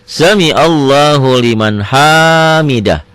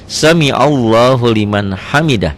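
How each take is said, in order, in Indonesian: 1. Vokal yang ditandai dibaca panjang. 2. Vokal yang ditandai dibaca pendek. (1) "Jangan, salah" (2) "Pendek di sini"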